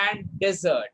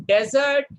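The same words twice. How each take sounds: First: Dessert said plainly, stress on SERT; contrasting pronunciation. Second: Desert said louder, stress on DE; contrasting pronunciation. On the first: Teacher contrasting desert with dessert, plain second take. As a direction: glide into the second syllable of dessert. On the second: Teacher contrasting desert with dessert, louder first take. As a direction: punch the first syllable of desert. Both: Shown as a demonstration. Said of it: "small difference between".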